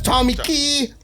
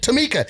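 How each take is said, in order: First: The name sounds like 'Tommy Key'. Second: The name sounds like 'Tamika'. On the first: This is how the spelling reads. The speaker calls it wrong. "That's Tommy Key" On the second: This is how the owner of the name says it. The speaker calls it right. "she pronounced it Tamika, so that's how you pronounce that shit"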